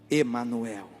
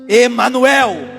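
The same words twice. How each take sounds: First: It is said at normal volume. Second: It is said loudly and strongly.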